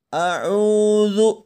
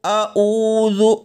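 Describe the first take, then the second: First: It starts with a constricted throat sound. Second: It starts with a plain vowel sound. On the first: The speaker calls it right. "melainkan a'udzu" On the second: The speaker calls it wrong. "Jangan dibaca a'udzu"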